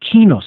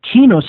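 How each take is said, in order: First: The word begins with a K sound. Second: The word begins with a K sound.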